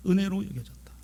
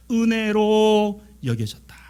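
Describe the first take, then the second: First: Soft, brief, half-whispered echo; hushed repeat. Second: Slow, sustained declaration on a held note; drawn-out proclamation. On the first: Preacher letting the grace sink in, hushed echo. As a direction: drop to a hush and say it simply. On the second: Preacher crowning a list of graces, drawn-out proclamation. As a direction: stretch 은혜로 out long and full, then fall away. Preacher's climactic line, then hushed repeat. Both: Real, not acted.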